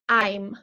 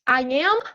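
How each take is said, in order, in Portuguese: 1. É dito como uma sílaba contraída. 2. É dito como duas palavras completas separadas.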